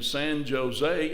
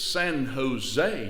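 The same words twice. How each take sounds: First: Jose begins with a hard J sound. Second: Jose begins with an H sound. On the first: The speaker calls it wrong. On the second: The speaker calls it right.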